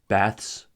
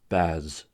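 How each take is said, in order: First: The ending has a voiceless th and s. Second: The ending has a voiced th and z. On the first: "the voiceless consonant cluster ths" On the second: "the voiced"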